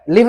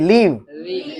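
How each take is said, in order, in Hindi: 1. इस शब्द में स्वर छोटा है। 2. इस शब्द में स्वर लंबा है। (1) "लिव नहीं"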